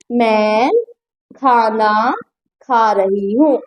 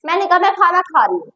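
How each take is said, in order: First: Lower, with long pauses between the words; slow word-by-word dictation. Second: Said in the usual way. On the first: Shown as a demonstration. Teacher dictating to students, slow and spaced. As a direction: spell it out slowly for the class. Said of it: "slow spaced dictation". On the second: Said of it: "ठीक है".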